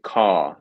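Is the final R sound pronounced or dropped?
dropped. The word stops early with no final R sound. The speaker calls it right. "So we actually stop a bit earlier"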